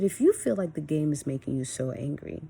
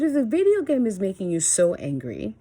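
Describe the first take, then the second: First: Even retold parental talk; calm, controlled tone. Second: Higher, louder retold reprimand; heated scolding. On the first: Mom re-enacting talking to her angry son, calm. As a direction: reason with them, temper in check. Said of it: "I kept this tone of voice". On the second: Mom re-enacting her first warning to gaming son, heated. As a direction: act out telling a child off firmly.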